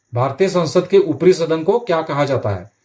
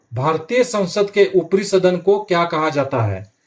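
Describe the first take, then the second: Both takes have the same delivery.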